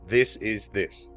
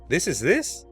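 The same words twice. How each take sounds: First: The voice stays flat and falls at the end. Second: The voice rises at the end like a question. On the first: It is stated as a fact. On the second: It asks for confirmation.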